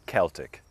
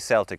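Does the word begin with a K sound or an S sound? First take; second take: K sound; S sound. First: The word begins with a hard K sound. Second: The word begins with a soft S sound. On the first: "typically we say Celtic with a K sound" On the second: This refers to sports teams. "We do say Celtic sometimes, like for the Glasgow Celtic soccer team"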